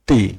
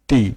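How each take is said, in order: First: The t is said the Bengali way. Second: The same.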